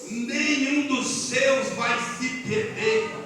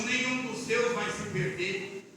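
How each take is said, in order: First: "Nenhum" drawn out and stressed; slow, weighty proclamation leaning on "Nenhum"; emphatic repeat. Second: Softer, slow delivery; subdued quoted promise. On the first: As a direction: stretch every word of "Nenhum dos seus", very slowly. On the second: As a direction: relay God's promise softly. First take of a repeated promise. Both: Retold or imitated.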